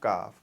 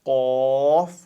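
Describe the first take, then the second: First: The first consonant is a light front k. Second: The first consonant is a heavy, deep throat q. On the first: The speaker calls it wrong. "हम पढ़ते हैं फिर काफ काफ ... तो सेम हो जाता है ये अल्फाबेट, लेकिन ये ऐसा नहीं है" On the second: The speaker calls it right. "कॉफ मोटा ... हैवी साउंडेड अल्फाबेट है"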